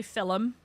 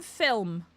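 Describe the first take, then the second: First: "film" said as "fillum"; two syllables. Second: "film" as a single syllable; one syllable. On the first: Showing what she doesn't say, countryside "fillum". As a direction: put an extra vowel in "film": "fillum". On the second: Saying her own version, one-syllable "film". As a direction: say "film" with no vowel between l and m. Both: Shown as a demonstration. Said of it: "I don't say film".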